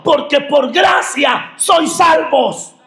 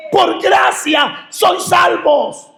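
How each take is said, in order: First: Higher pitched proclaiming; preacher stating the verse; preaching proclamation. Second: Much higher and slow, every word stretched; the verse drawn out at the peak of the sermon; slow emphatic repeat. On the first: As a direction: declare the verse to the church. Repeats the key verse. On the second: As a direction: hammer home "Por gracia sois salvos" slowly and high. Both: Acted.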